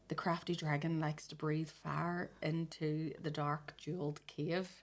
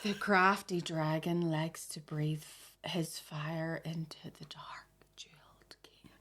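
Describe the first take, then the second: First: It is read at normal speed. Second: It is read slowly.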